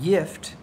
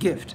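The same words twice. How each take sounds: First: The word is pronounced the Swedish way. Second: The word is pronounced the Danish way. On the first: "So Swedish uh, gift is pronounced like gift" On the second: "while in Danish is pronounced gift"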